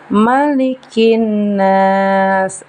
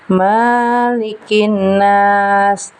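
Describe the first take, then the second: First: The first syllable's vowel is short and quick. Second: The first syllable's vowel is drawn out long. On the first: The speaker calls it right. "Seharusnya malikin nas, agak cepat di bagian ma-nya" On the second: The speaker calls it wrong. "ma-nya tidak bisa dibaca panjang. Tidak boleh seperti ini"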